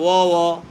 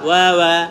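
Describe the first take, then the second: First: The syllable is a plain rounded 'o' sound. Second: The syllable is 'wa', opening the mouth wide. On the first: The speaker calls it wrong. "অনেকেই পড়বে ও ও" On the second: The speaker calls it right. "হবে ওয়া ওয়া"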